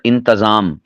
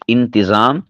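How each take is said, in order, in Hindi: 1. t के बाद a स्वर आता है। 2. t के बाद i स्वर आता है। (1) "ता के ऊपर ज़बर बोलते हैं, गलत है" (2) "ता के ज़ेर के साथ"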